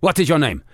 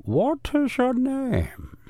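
First: Said in the usual way. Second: High, very slow spy voice; drawn-out high villain question; high spy interrogator. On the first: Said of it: "Do it again". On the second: Pretend. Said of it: "I'm supposed to have all the voices".

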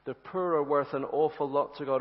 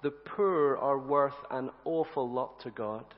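First: "are" pushed, line at normal pace; stress on are. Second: "poor" stressed, whole line slow; slowly weight "poor" in "The poor are worth". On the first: Preacher insisting to friends, stress on "are". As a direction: hit "are" in "The poor are worth". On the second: Preacher telling the church slowly, "poor" stressed. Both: Shown as a demonstration. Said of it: "do you know what?".

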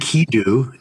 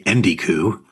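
First: Enkidu with k before d, higher; corrected pronunciation. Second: Endiku with d and k swapped; mispronounced name. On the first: Host correcting a co-host's slip, corrected pronunciation. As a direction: say "Enkidu", EN-kee-doo, raised pitch. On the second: Host correcting a co-host's slip, mispronounced name. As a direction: say "Endiku", d before the k. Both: Shown as a demonstration. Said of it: "I'm gonna correct your pronunciation".

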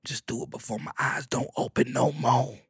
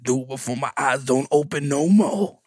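First: A soft, quiet, lightly voiced mother; a hint of a frail old mama. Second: Lightly voiced mama repeating herself; a touch of the old mother, plainer volume. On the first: Mama urging her son to make it, a light mama voice. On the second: Mama repeating her morbid request, lightly voiced. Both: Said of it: "She said".

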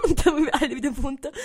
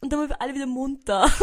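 First: Repeated with a laugh, a little higher and louder; laughing through it. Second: Said in the usual way. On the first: Real, not acted. To viewers, retelling waking up, laughing. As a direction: giggle while saying it again.

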